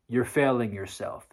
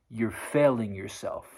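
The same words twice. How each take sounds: The two takes are said the same way.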